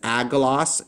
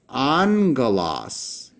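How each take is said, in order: First: The first gamma is said as a hard g. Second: The first gamma is said as an n. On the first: The speaker calls it wrong. "when I pronounce this agalos, and the answer is no" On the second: The speaker calls it right. "the first gamma here is pronounced with a um, an N sounding letter"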